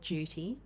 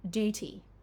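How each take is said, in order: First: A 'y' sound comes before the vowel. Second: No 'y' sound comes before the vowel. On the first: "the Australian or British pronunciation first" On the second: "then the American version"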